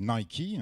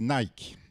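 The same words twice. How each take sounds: First: The brand name is said a fancier, snobbish way. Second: The brand name is said the everyday French way.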